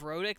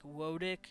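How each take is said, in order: First: The word begins with an R sound. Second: The word begins with a W sound. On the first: "instead of rhotic" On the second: "they would say something like wodic"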